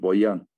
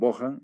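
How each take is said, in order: First: The middle consonant sounds like a 'y'. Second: The middle consonant sounds like an 'h'. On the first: The J is read as an I. "lo pronunciaban como I" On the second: The J is read as an H sound. "otros pronunciaban Bojan y le han puesto la H"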